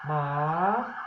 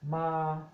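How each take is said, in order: First: The word is said on a rising tone. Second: The word is said on a flat tone. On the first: It means a dog. "the rising tone, which is ma" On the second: It means to come. "flat tone means to come"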